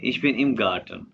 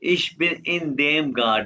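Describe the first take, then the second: First: The words in dem merge into one syllable, im. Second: The words in dem are said as two words. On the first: "इन का एन खत्म किया, देम का डे खत्म किया, तो ये बन गया इम" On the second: "तो ये बन जाता है इन देम गार्ट"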